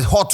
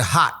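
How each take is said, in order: First: Said in the usual way. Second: "hot" said like "hat", final T dropped; "hot" with an open "ah" and no clear T; American pronunciation. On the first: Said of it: "letters bi wɔ hɔ ntimi pronounce T". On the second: Shown as a demonstration. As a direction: say "hot" as an American "hah", swallowing the T. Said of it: "ntimi pronounce T".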